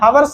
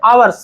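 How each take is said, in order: First: The word starts with an audible h sound. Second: The word starts with a vowel, no h. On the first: The speaker calls it wrong. "कुछ लोग इसे हावर्स pronounce करते हैं, हावर्स नहीं है" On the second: The speaker calls it right. "आवर्स है, इसे शुद्ध में आवर्स पढ़ते हैं"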